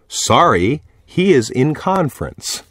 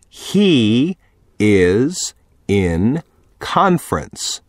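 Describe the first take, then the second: First: It is said at normal speed. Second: It is said slowly.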